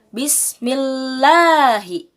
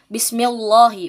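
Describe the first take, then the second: First: The L of Allah is pronounced thin. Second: The L of Allah is pronounced thick. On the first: The speaker calls it right. "Tapi harus Bismillahi" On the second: The speaker calls it wrong. "bukan Bismillahi, bukan seperti itu"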